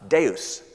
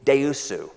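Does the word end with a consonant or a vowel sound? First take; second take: consonant; vowel. First: It is said the Latin way, ending in s. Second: It is said in a Japanese accent, ending in -su.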